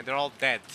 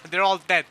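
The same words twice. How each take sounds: First: Said in the usual way. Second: Loud, higher, through real laughter; laughing. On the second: Real, not acted. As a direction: say it while cracking up. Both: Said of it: "I shouldn't be laughing at that".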